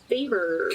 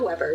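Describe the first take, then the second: First: The name starts with a German-style W sound. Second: The name starts with an English W sound. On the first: The speaker calls it right. "the W in German is a different sound. It's more like like Faber" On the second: The speaker calls it wrong. "It's not Weber. That's not how you pronounce it"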